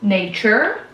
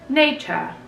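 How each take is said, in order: First: It is said with an American accent. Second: It is said with a British accent. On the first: "en anglais américain ça se dit" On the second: "en anglais britannique ça se dit"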